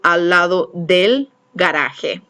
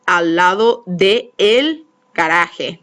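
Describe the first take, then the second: First: The two words merge into one short syllable. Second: The two words are said as separate syllables. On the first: The speaker calls it right. "I have to join them" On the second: The speaker calls it wrong. "that just sounds goofy"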